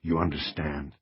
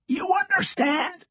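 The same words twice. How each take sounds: First: Said in the usual way. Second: Slow, strained raspy retort; defiant rasp. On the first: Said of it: "That is a federal with a capital F". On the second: A narrator's reading. Cross echoes the agent to defy him, defiant rasp. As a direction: rasp it back mockingly. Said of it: "doing his best to stand up to him".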